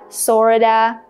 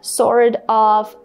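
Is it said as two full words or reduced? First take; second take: reduced; full. First: It is said as one reduced word. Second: It is said as two full words. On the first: "you can say" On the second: "instead of saying"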